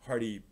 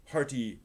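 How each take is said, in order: Both takes have the same delivery.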